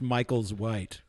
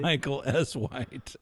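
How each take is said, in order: First: The S is joined onto Michael as one word. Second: The S is said as its own letter. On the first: The speaker calls it wrong. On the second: The speaker calls it right.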